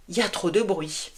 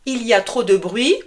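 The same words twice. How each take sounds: First: "Il y a trop de bruit" said as "Y a trop d'bruit", softer; contracted "il y a". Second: Said in the usual way. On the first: Shown as a demonstration. Teacher shows students how French really say it, contracted. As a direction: clip "Il y a" down to a quick "y a".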